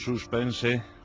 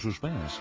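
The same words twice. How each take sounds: First: It is said with a Spanish pronunciation. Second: It is said with an English-style pronunciation. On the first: This is the traditional way to say it. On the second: This is how trendy modern people say it.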